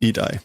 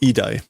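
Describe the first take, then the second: First: The word begins with an 'ee' vowel. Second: The same.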